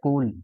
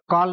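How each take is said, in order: First: The vowel is a rounded 'oh' sound. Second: The vowel is an open 'aw' sound. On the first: The speaker calls it right. "इसका उच्चारण होता है कोल" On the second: The speaker calls it wrong. "कॉल नहीं होता"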